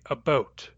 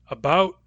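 First: It is said with a Canadian accent. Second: It is said with an American accent. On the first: "you say about" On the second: "I say about"

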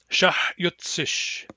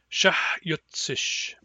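The two takes are said the same way.

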